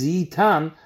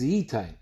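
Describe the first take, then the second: First: Yitan ending in an open "ah" plus n; read-aloud form. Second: Yitain ending in an "ain" diphthong; written-form reading. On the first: Teacher showing students the spoken reading, Yitan with a plain "an" ending. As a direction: say Yitan with "tan", no diphthong. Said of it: "Der Kri ist Yitan". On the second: Teacher showing students the written form, Yitain with an "ain" ending. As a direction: say Yitain with a long "ay" in the last syllable. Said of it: "der Ksiv ist Yitain". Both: Shown as a demonstration.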